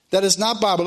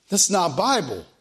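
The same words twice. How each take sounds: First: "not" pressed a little harder, words spelled out fully; stress on NOT. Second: Said in the usual way. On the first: Shown as a demonstration. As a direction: lean on "not" to correct the record.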